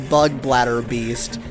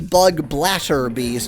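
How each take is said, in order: First: The middle consonant is a soft, d-like tap sound. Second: The middle consonant is a crisp, clear t sound. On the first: The speaker calls it wrong. "which is how an American would usually pronounce it" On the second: The speaker calls it right. "I'm trying to call it a bug blatter beast"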